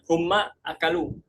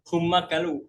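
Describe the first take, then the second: First: A glottal stop begins the second word. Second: The second word begins without a glottal stop. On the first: "bisa kita tetapkan hamzanya" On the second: "mereka menghilangkan hamzanya"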